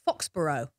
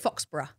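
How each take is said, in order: First: Pronounced with an American pronunciation. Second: Pronounced with a British pronunciation. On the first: This is how Americans say it. "you guys say like Foxborough" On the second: This is how the British say it. "we would say Foxborough"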